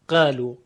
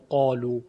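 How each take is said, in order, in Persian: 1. الف کشیده سبک و ترقیق است. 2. الف کشیده پُر و تفخیمی است.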